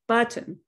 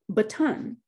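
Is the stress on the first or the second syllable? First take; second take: first; second. First: The stress falls on the first syllable. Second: The stress falls on the second syllable. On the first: The speaker calls it right. "try making ba stronger" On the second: The speaker calls it wrong. "I accidentally make ton dominant or accented"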